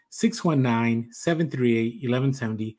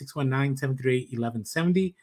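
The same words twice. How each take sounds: First: The number is said slowly. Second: The number is said fast.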